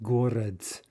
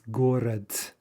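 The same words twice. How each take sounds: First: The word ends with a voiceless t sound. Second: The same.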